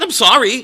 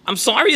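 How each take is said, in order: First: Put-on high, whiny little-kid "I'm sorry"; childish whiny apology. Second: Said in the usual way. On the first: Rabbi mimics a parent who sounds like a kid, whiny. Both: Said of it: "That's what you sound like".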